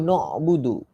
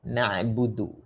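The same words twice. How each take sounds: First: "na'budu" rounded to nobudu; misreading. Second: "Na'budu" with open a and throat catch; correct pronunciation. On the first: Retold or imitated. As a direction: say "na'budu" with o in the first syllable. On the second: Shown as a demonstration. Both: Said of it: "Aduh, na'budu".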